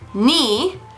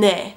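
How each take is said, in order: First: The vowel is a high 'ee' sound. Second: The vowel is a mid 'eh' sound. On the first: This is the everyday form that keeps it distinct from 'mine'. "why am I reading it as 니?" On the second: This is the standard reading, which sounds the same as 'mine'. "the way they're supposed to be read"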